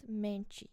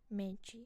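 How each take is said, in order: First: The ending sounds like 'chee'. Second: The ending sounds like 'chee'.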